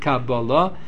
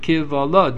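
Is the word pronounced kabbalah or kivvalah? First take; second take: kabbalah; kivvalah. First: The word is said with the vowels 'kabbalah'. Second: The word is said with the vowels 'kivvalah'. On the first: It means received tradition. "He doesn't pronounce it kabbalah" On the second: It means complaint. "he pronounces it kivvalah"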